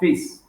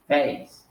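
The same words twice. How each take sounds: First: The vowel is one steady, unchanging sound. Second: The vowel glides from one sound into another. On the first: The speaker calls it wrong. "So it's not face" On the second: The speaker calls it right. "it's face"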